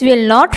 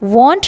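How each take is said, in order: First: Both words are said fully and separately. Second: The words are contracted into one syllable. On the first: "a full form of will not" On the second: "a weak form of will not, and we pronounce it won't"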